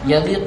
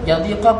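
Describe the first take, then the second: First: The word ends in a u vowel. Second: The word ends in an a vowel. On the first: The verb starts a new clause. "baca dengan rafa' qaf kerana istinaf" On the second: The verb is joined to the preceding verb. "kita nasabkan"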